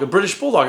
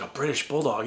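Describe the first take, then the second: First: BRITISH stressed, pitched higher; "a British Bulldog" with a firm correcting stress on British; dad correcting. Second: "A British Bulldog?" asked much softer, in hushed wonder; a little kid echoing in quiet awe; awed kid question. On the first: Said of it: "And not English Bulldog". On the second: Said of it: "I was like". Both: Retold or imitated.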